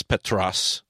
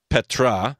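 First: "Petros" ending in a clear s; careful "Petros", the final s sounded; corrected pronunciation. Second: "Petra" ending in an open "ah"; careful "Petra" with no final s; contrasted pronunciation. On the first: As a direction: say "Petros" as pet-ROSS. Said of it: "it's Petros". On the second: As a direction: say "Petra" slowly, as pet-RAH. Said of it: "It's not Petra, it's Petros". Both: Shown as a demonstration.

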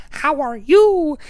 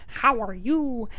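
First: Much higher and louder slow bird squawk; loud high crow imitation; talking crow, louder. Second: Much higher, slow bird voice; high parrot-like crow imitation; talking crow. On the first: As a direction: belt the greeting like the crow. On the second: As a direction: mimic the crow's squawky greeting. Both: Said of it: "There's this one crow that says".

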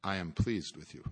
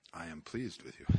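First: Lower, softer, tender reassurance; lower, softer tender voice of Christ. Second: Much softer, lower, near-hushed tenderness; hushed, lower tender voice of Christ. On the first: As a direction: speak it gently as Christ comforting. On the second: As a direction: let it fall to a soft, low hush. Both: Acted. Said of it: "He sounds like this".

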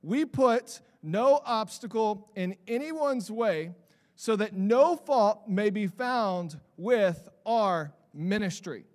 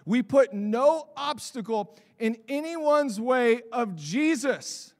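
First: Slow, measured reading of the verse; slow scripture recital. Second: We put no obstacle in anyone's way, with put hit hard, slow and louder; fired-up, slow restatement with put stressed; emphatic repeat. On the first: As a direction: read the passage out deliberately before preaching on it. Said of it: "he says this". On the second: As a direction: drive the verse home, leaning on put. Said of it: "I stinking love that passage". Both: Shown as a demonstration.

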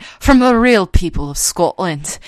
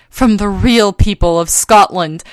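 First: Imitated Scottish ad voice-over; Scottish accent. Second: Said in the usual way. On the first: Mimicking the lady in a Scotch commercial, in a Scottish accent. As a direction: put on a Scottish lady's accent. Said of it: "this lady with a Scottish accent". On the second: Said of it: "and they're like".

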